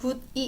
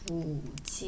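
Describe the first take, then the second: First: The second syllable begins with a d sound. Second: The second syllable begins with a j sound. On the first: The speaker calls it wrong. "이렇게 발음하지 않고" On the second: The speaker calls it right. "이가 아니라 지, 굳이 이렇게 발음이 돼요"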